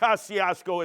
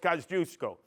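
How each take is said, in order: First: The name is said with English-style sounds. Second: The name is said with Polish-style sounds. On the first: The speaker calls it wrong. "It's not Kosciuszko" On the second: The speaker calls it right. "it's Kosciuszko"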